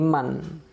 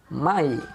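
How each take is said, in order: First: The word ends with a clear n sound. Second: The n merges into a following y-glide. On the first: The speaker calls it wrong. "bukan lagi man" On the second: The speaker calls it right. "tapi mai"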